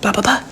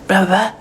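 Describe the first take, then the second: First: It is said very fast. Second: It is said slowly and deeper.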